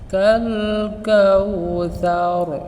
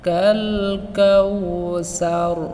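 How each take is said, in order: First: The consonant in the second word sounds like 'th'. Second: The consonant in the second word sounds like 's'. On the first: The speaker calls it right. "সঠিক উচ্চারণটি হবে" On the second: The speaker calls it wrong. "সাকে আমরা পাতলা না করে সিনের মতো উচ্চারণ করি"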